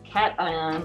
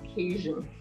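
First: The first syllable sounds like the word cat. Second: The first syllable does not sound like cat. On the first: The speaker calls it right. "it would help you remember that the word is cation" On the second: The speaker calls it wrong. "not cation"

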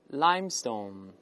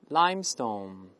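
No difference in how they are said.

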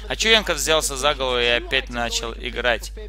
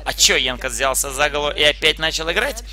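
First: It is read with a flat, statement-like intonation. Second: It is read with a questioning intonation. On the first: The speaker calls it wrong. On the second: The speaker calls it right.

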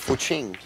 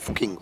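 First: The second syllable starts with a ch sound. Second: The second syllable starts with a different consonant. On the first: The speaker calls it right. "But it's actually Fuching" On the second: The speaker calls it wrong. "I was calling him Fuching all weekend"

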